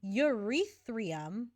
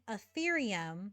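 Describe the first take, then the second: First: The word begins with a 'yoo-rith' sound. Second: The word begins with an 'ee-theer' sound. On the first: The speaker calls it wrong. "calling Ethereum Eurythrium" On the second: The speaker calls it right. "calling Ethereum"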